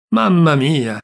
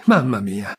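First: Mamma mia cried out louder in despair; louder despairing cry. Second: Said in the usual way. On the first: Acted. Old uncle despairs over his mistake, crying out louder.

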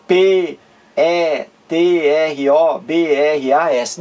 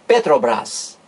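First: P E T R O B R A S as slow separate letter names; spelled letter by letter. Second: Petrobras joined up, lower, pe-tro-BRAS; read as one word. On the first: Teacher showing how it is not said, spelled out. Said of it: "Eu não digo". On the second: Teacher correcting the spelled version, said as a word. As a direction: say Petrobras whole, not as letters. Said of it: "Não, eu digo". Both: Shown as a demonstration.

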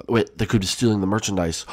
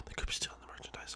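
First: Said in the usual way. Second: Barely audible, gasped whisper; suspicious whisper. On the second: Pretend. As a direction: whisper it as if intruders might hear. Repeats it in a secretive whisper.

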